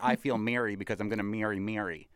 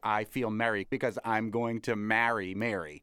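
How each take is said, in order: First: Merry, marry and Mary sound the same. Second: Merry, marry and Mary have distinct vowels. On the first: The speaker calls it wrong. "A lot of people say ... Don't do that" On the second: The speaker calls it right. "people with Boston accents are really good at differentiating"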